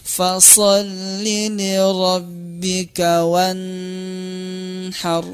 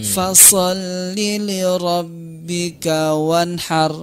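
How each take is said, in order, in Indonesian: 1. Bunyinya ditahan dan dipanjangkan. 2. Kata terakhir dibaca terlalu cepat. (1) "izhar ini juga tidak boleh ditahan" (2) "terlalu cepat ngambilnya"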